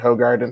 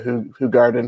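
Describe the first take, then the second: First: The first syllable sounds like 'hoe'. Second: The first syllable sounds like 'who'. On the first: This is how it is said in America. "I think we say ho" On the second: This is how it is said in Belgium. "I think that they say who over there"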